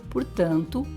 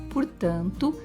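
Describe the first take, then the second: No difference in how they are said.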